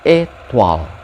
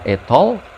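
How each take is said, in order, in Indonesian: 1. Vokal terakhir diucapkan seperti 'wa'. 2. Vokal terakhir diucapkan seperti 'oi'. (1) "tapi étoile" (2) "bukan étoile"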